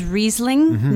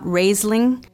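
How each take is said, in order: First: The first vowel sounds like 'ee'. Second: The first vowel sounds like 'ay'. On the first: The speaker calls it right. "the pronunciation is Riesling" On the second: The speaker calls it wrong. "not Raisling"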